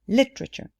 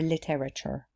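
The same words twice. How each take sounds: First: The word is said with three syllables. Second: The word is said with four syllables. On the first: The speaker calls it right. "The pronunciation of this word is three syllables" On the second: The speaker calls it wrong. "not literature"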